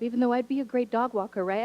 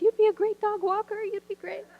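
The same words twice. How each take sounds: First: Said in the usual way. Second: Higher, overeager cheerleading voice; "You'd be a great dog walker" pitched way up, sing-song encouragement; gushing reassurance. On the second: Retold or imitated. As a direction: hype her up in a squeaky fan voice. Teacher reassures in high voice.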